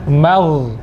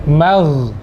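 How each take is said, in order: The two takes are said the same way.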